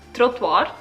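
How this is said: It is said with a Swiss accent. "the Swiss way"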